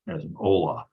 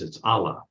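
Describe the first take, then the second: First: The first vowel is an 'o' sound. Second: The first vowel is an 'a' sound. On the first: "We'll put a holum after that in case you speak Hebrew. Then you can pronounce it as"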